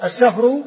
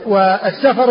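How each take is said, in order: First: Slow السفر, as-Safru; السفر drawn out, f running into r; sukun on the fa. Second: والسفر as was-Safar; fatha on the fa. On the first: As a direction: say السفر with vowelless f. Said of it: "بإسكان الفاء". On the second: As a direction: say والسفر with a after f. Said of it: "والسفر بفتحها". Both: Shown as a demonstration.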